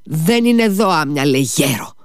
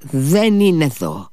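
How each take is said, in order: First: Put-on much higher angry shout at the old man; escalated angry outburst. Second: Higher, slow first angry retort; a touch of Ivan's anger, held back; restrained angry denial. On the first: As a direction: throw it at him, higher and harder. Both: A narrator's reading. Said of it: "του φώναξε θυμωμένα ο Ιβάν".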